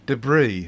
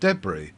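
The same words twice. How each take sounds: First: It is said with an American pronunciation. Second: It is said with a British pronunciation. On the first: The speaker calls it wrong. "they're saying debris instead of ... that's a pure American" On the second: The speaker calls it right. "instead of debris"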